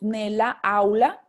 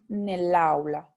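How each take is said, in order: First: Both vowels are pronounced separately at the boundary. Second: The first vowel is dropped, joining the words. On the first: The speaker calls it wrong. "es como si dijéramos nella aula" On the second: The speaker calls it right. "vamos a apostrofarlo ... para que tenga un mejor sonido"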